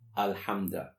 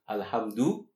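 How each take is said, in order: First: The word ends with an 'a' vowel. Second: The word ends with a 'u' vowel. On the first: The praise is the object of an implied verb. "The U-A sound" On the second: The praise is the subject and is ongoing. "The U-A sound"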